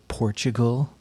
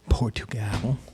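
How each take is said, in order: First: It is said with an English pronunciation. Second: It is said with a Portuguese pronunciation. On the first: The speaker calls it wrong. "when people say Portugal, that's not right" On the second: The speaker calls it right. "It's actually Portugal"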